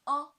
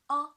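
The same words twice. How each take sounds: First: The pitch stays high and level. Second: The same.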